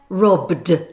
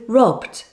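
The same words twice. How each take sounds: First: The word ends with a full d sound. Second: The word ends with a light t sound. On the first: The speaker calls it wrong. "which of course is wrong" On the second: The speaker calls it right. "with a light t sound at the end"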